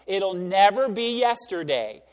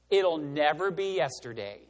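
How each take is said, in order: First: "never" slowed and punched, the phrase louder; stress on never. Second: Said in the usual way. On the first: Real, not acted. Preacher urging the congregation, "never" pressed slow and louder. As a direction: lean hard into "never", slowly. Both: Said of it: "you need to pull yourself out".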